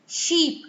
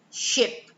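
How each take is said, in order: First: "sheep" with a drawn ee, higher pitch; long ee vowel. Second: "ship" with a short, lax i; short i vowel. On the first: Teacher contrasting two sounds, "sheep" with long ee. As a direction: lift and lengthen the ee in "sheep". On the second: Teacher contrasting two sounds, "ship" with short i. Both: Shown as a demonstration. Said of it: "These sounds".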